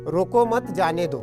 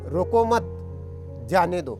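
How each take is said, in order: First: It is said without any pause. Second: There is a pause right after mat.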